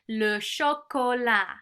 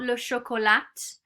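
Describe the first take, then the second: First: The final t is silent. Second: The final t is pronounced. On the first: The speaker calls it right. "they say le chocolat" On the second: The speaker calls it wrong. "not le chocolat"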